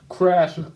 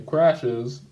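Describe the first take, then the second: First: "crashes" clipped to crash, the ending swallowed; slip of the tongue. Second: "crashes" said in full, both syllables clear; corrected word. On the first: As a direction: say "crashes" cut short as crash. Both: Real, not acted. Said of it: "Oh, excuse me".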